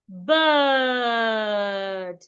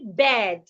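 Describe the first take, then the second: First: The vowel is long, like in bird. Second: The vowel is short, like in bed. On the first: The speaker calls it right. "It should be pronounced bird" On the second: The speaker calls it wrong. "we should not say bed"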